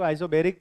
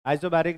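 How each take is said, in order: First: आइसोबेरिक with "be" as the third syllable; mispronounced isobaric. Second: आइसोबारिक with "baa" as the third syllable; corrected pronunciation. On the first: Teacher showing how some misread it, आइसोबेरिक with "be". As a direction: say आइसोबेरिक with an "ay" vowel after "iso". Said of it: "आइसोबेरिक नहीं है". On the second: Teacher correcting the reading, आइसोबारिक with long "baa". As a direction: say आइसोबारिक with a long "aa" after "iso". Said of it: "कुछ लोग इसको आइसोबेरिक पढ़ते हैं". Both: Shown as a demonstration.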